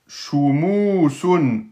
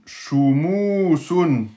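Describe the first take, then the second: First: Shumu sun stretched with a long u; teacher modelling Shumu sun; slow model reading. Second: Teacher repeating Shumu sun for class; slow model reading. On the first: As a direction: read Shumu sun slowly, syllable by syllable. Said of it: "final reading of the word". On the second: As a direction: repeat Shumu sun, drawing out each vowel. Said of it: "repeats the model reading". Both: Shown as a demonstration.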